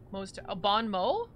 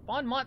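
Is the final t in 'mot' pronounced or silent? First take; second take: silent; pronounced. First: The final t of the word is silent. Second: The final t of the word is pronounced. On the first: "Mott is pronounced like Mo?" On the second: "Bon Mott sounds so much better"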